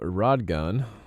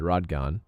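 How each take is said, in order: First: The name ends with a 'gun' sound. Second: The name ends with a 'gon' sound. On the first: The speaker calls it wrong. "not Gun" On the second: The speaker calls it right. "I think it's Rodgon"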